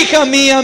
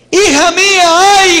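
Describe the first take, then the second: First: Said in the usual way. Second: High, loud wailing cry of a grieving father; anguished lament. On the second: Acted. Jephthah grieving over his daughter, loud wailing lament. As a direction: cry out to her in despair.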